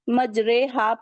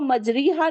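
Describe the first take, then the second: First: The vowel after r is an ay sound. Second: The vowel after r is a long ee. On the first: The speaker calls it right. "बल्कि मजरेहा पढ़ेंगे" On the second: The speaker calls it wrong. "इसको मजरीहा नहीं पढ़ेंगे"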